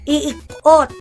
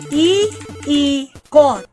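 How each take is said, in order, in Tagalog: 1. Pinagsama ang dalawang tunog ng i bilang isa. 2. Hiwalay na binibigkas ang dalawang tunog ng i. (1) "Hindi iikot. Hindi pa pwedeng iikot" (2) "hihiwalay yan. Hiwalay"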